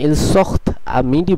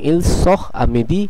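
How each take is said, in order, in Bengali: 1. শেষের t পরের স্বরধ্বনির সঙ্গে যুক্ত হয়। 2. শেষের t স্বরধ্বনির আগে নীরব থাকে। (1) "যদি আপনারা ইল সখত আমিদি বলেন তাহলে সেটি ভুল হবে" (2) "বরং ইল সখ আমিদি এটি মনে রাখতে হবে"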